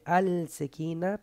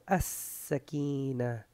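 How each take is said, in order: First: The L sound is pronounced before the S. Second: The L is dropped and the S is doubled. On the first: The speaker calls it wrong. "no se dice alsekina" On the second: The speaker calls it right. "pero asakina. Porque la shedda mm-hmm. hace doble S"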